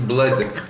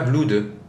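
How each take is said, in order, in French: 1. La voyelle est un son 'uh' court. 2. La voyelle est un son 'oo' long. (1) "ils disent blood" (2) "ils disent pas blood"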